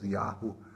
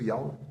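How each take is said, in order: First: It is said with a raspy guttural throat sound. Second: It is said without a rasp in the throat. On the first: "som glutural, né, que é produzido quando falamos Yahu" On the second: "Existe a pronúncia com trigrama"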